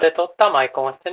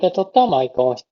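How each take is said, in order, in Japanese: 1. 声がよりクリアで明るく聞こえます。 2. 声がより厚く、力強く聞こえます。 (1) "こちらがブライトで撮ったマイク音質になります。" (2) "こちらがパワフルで撮ったマイク音質。"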